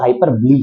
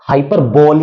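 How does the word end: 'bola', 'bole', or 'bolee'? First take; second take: bolee; bole. First: The word ends with a final 'lee' sound. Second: The word ends in a single 'bole' syllable. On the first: The speaker calls it right. "हाइपरबली ही pronounce करेंगे" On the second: The speaker calls it wrong. "नहीं पढ़ेंगे"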